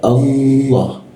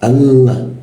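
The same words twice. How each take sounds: First: The L is made higher, an Arabic L. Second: The L is a light, forward Indonesian L. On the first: The speaker calls it right. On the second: The speaker calls it wrong. "kalau kita menggunakan la-nya bahasa Indonesia"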